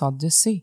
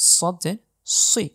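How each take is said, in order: First: The s sound is thin and plain. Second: The s sound is hissing and thick. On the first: The speaker calls it wrong. "আপনি যদি আমার মতো এভাবে পড়ে থাকেন তাহলে আপনি সম্পূর্ণই ভুল পড়ছেন" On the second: The speaker calls it right. "শীষ সহ একটু মোটা করে উচ্চারণ হবে"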